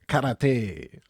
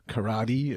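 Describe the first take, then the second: First: It is pronounced the Japanese way. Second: It is pronounced the local way.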